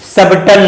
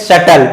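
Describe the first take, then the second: First: A b sound is heard in the middle. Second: No b sound is heard in the middle. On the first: The speaker calls it wrong. "क्या लिखा है सबटल नहीं" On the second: The speaker calls it right. "इसे पढ़ते हैं शटल, ये बी word silent हो जाएगा"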